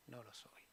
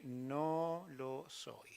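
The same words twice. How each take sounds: First: Much softer repeat of no lo soy; faded echo. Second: Very slow, dragged no lo soy; drawn-out denial. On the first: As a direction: let no lo soy die away to almost nothing. Pedro repeats his denial. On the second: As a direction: stretch out no lo soy reluctantly. Pedro denies knowing Jesus. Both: Acted.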